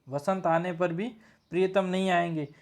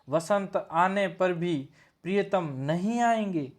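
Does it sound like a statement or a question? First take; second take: statement; question. First: It is said as a plain statement. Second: It is said with a questioning, ironic tone.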